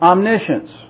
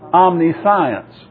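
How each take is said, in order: First: The ending sounds like shence, without science. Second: The ending sounds like the word science. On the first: The speaker calls it right. "It's commonly pronounced omniscience" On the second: The speaker calls it wrong. "You normally would call that omniscience, but that's not the way you pronounce it"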